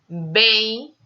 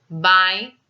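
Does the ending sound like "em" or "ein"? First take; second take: em; ein. First: The ending is pronounced like "em". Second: The ending is pronounced like "ein". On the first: "No Brasil, ... pronunciada como um "em"" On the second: "em Portugal ... pronúncia ein"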